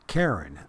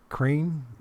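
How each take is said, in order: First: It is said as two syllables, like Karen. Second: It is said as one syllable, like crane. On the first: The speaker calls it right. "Pronounced like, don't be a Karen" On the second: The speaker calls it wrong. "it's not crane"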